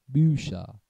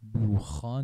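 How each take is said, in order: First: The ch is pronounced as a soft sh sound. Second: The ch is pronounced as a harsh kh sound. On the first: The speaker calls it right. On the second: The speaker calls it wrong.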